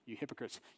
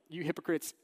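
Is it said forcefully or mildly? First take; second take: mildly; forcefully. First: It is said quietly and mildly. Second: It is said loudly and forcefully.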